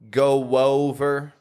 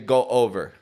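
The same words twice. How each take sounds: First: The words are joined by a W glide. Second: The words are said separately without a glide. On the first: "Do I need to be saying" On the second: "Or can I just say"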